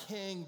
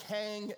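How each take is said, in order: First: King with a short I vowel; non-local pronunciation. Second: Kang drawn out with an A vowel; local pronunciation. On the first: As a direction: say King to rhyme with "sing". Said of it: "and not King". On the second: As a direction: stretch Kang, rhyming with "hang". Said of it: "if you say it wrong". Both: Shown as a demonstration.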